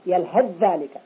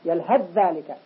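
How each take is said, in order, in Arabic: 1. يندمج صوت th في صوت dh الذي يليه. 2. يندمج صوت th في صوت dh الذي يليه.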